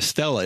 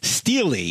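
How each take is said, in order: First: The word ends with an uh sound. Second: The word ends with an ee sound. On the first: "the reason I call it a stela" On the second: "Steely is, I guess, the right way to say it"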